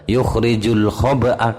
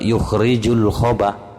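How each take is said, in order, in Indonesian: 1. Hamzah akhir dan vokalnya dibunyikan. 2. Kata ini berakhir tanpa hamzah akhir. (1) "kalau tidak diwakafkan" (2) "Kalau diwakafkan dengan cara nakal"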